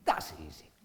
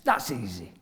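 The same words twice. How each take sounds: First: Much lower and softer, trailing off to himself; muttered echo. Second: Tossed off lightly, sure of himself; breezy confidence. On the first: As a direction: repeat it under your breath, half doubting. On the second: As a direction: say it like it's nothing. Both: Retold or imitated. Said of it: "so I thought".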